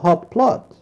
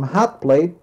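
First: The second word has the vowel of 'lot'. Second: The second word has the vowel of 'late'. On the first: The speaker calls it wrong. "I already forgot how to pronounce it, and I told him hot plot" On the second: The speaker calls it right. "instead of telling them hot plate"

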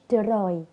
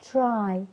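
First: The tr is a plain t followed by r. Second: The tr sounds close to a ch sound. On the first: The speaker calls it wrong. "هي مش تراي" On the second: The speaker calls it right. "التي ار بقول تشا"

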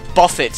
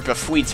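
First: The word has a plain English pronunciation. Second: The word has a French-like pronunciation.

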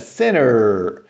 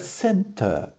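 First: It is said with an American accent. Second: It is said with a British accent. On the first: "no inglês americano é center" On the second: "no inglês britânico é center"

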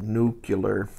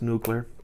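First: The word has the speaker's regional pronunciation. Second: The word has the standard pronunciation. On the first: This is how the speaker's own community says it. "because we pronounce it nuclear" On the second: This is how most others say it. "But I understand it's nuclear"

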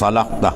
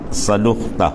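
First: The vowel after the L is 'a'. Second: The vowel after the L is 'u'. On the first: The speaker calls it right. "Lam baris atas" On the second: The speaker calls it wrong. "Boleh juga baca domah"

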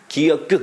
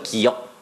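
First: The final k is released with an added vowel. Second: The final k is held with no added vowel. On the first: The speaker calls it wrong. "기억그 이렇게 하지 않죠" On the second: The speaker calls it right.

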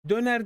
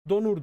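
First: The vowels are front, like ö and e. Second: The vowels are back, like o and u. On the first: The speaker calls it right. "Döner demiyor" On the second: The speaker calls it wrong. "Donur diyor"

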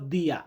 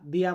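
First: It starts with a 'd' sound, European style. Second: It starts with a 'd' sound, European style.

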